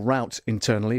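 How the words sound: Route is said with an American pronunciation.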